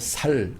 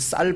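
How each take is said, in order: First: The word starts with a plain, soft s sound. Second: The word starts with a tense, hard s sound. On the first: The speaker calls it wrong. "쌀 발음을 못해서 살 그렇게 얘기합니다" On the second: The speaker calls it right. "쌀이라고 해봐라"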